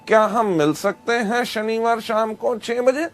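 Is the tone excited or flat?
flat. It is said without excitement, flatly.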